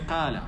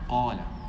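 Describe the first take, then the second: First: The first sound is light, without heaviness. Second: The first sound is heavy and full. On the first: The speaker calls it wrong. "it doesn't have the attributes of tafkhim" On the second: The speaker calls it right. "It's not qala"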